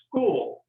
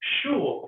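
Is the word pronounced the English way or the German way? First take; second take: English; German. First: The word gets its usual English pronunciation. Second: The word is pronounced like the German word. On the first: "to pronounce this the right way" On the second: "it says Schul, doesn't it? Because it's actually a German word"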